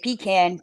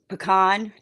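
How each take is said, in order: First: The first syllable sounds like 'pee'. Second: The first syllable is a short, weak 'puh'. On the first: The speaker calls it wrong. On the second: The speaker calls it right.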